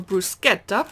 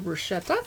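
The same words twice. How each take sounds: First: The word is pronounced the Italian way. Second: The word is pronounced the anglicized English way. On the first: The speaker calls it right. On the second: The speaker calls it wrong.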